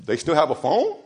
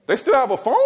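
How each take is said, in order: First: Said in the usual way. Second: Repeated higher in disbelief; incredulous. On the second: Retold or imitated. Pastor doubting a parent's lax discipline, incredulous. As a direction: ask it again, shocked they allowed it.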